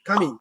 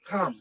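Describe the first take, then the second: First: An extra vowel sound follows the final m. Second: It ends on the m with no vowel. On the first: The speaker calls it wrong. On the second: The speaker calls it right.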